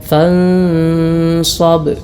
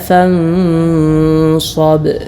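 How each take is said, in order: No difference in how they are said.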